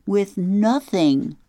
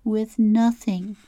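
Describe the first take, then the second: First: "With nothing?" asked high and slow, stretching "nothing"; a girl asks aloud, horrified at coming back with nothing; dismayed question. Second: "With nothing." said again slowly as a sad statement, falling on "nothing"; the girl repeats it to herself, resigned; flat repeat. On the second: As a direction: let it sink in, repeated glumly. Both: Acted. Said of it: "She paused for a minute and repeated".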